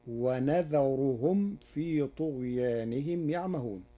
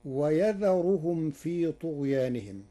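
First: "ونذرهم" with n, as wa-nadharuhum; nun of majesty. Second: Said in the usual way. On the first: Shown as a demonstration. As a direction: say nun in place of ya at the start of "ونذرهم". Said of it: "بنون العظمة". (نطق "ونذرهم" بنون العظمة) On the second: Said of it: "قرأ ورش كلمة ويذرهم".

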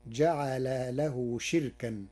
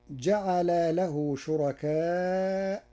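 First: "شركا" as shirkan, with a silent-vowel ra; kasra on shin, no hamza. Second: Said in the usual way. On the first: Shown as a demonstration. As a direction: say shir-kan for "شركا", slowly, no long aa or glottal stop. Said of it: "بكسر الشين". (نطق "شركا" بكسر الشين وإسكان الراء وحذف الهمزة) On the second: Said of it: "قرأ ورش كلمة شركاء".

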